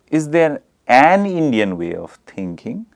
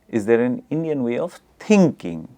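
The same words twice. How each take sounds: First: The stress falls on the word an. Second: The stress falls on the word thinking. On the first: "the stress is on an" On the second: "the stress is on thinking"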